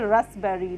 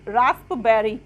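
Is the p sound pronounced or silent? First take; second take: silent; pronounced. First: The p sound is left out of the word. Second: The p sound is pronounced in the word. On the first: The speaker calls it right. "हम उस पी को silent मानेंगे" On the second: The speaker calls it wrong. "रास्पबेरी नहीं पढ़ेंगे"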